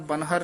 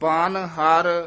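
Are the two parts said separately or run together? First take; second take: run together; separately. First: The two parts are run together as one word. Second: The two parts are said as separate words. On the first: The speaker calls it wrong. "ਬਨਹਰ ਨਹੀਂ ਕਹਿ ਦੇਣਾ" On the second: The speaker calls it right. "ਇਹ ਵੱਖਰਾ ਪਾਠ ਕਰਨਾ ਹੈ"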